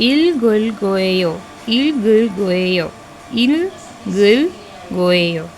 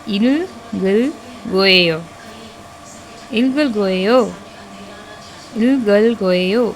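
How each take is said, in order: The two takes are said the same way.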